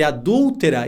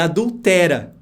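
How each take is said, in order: First: The stress falls on the syllable 'dul'. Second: The stress falls on the syllable 'te'.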